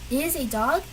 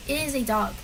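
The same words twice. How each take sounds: First: "dog" rising at the end as a question. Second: Said in the usual way. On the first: Shown as a demonstration. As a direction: turn "It is a dog" into a question by lifting DOG. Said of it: "It sounds more question-like". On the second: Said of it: "you make it sound more question-like".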